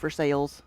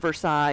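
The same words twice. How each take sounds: First: It is said the local Kentucky way. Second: It is said the usual, expected way. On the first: "it's called Versailles, Kentucky" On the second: "instead of"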